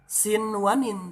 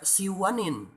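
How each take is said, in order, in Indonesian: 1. Bunyi n diucapkan dengan jelas dan terpisah. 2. Bunyi n menyatu dengan bunyi berikutnya. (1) "dibacanya jelas idhar" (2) "tidak dibaca siwanin"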